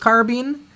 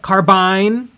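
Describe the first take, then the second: First: The last syllable sounds like 'been'. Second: The last syllable sounds like 'bine'. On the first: The speaker calls it wrong. "There's no such thing as a bean" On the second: The speaker calls it right. "It's only bines"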